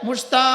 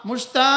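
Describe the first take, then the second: Both takes have the same delivery.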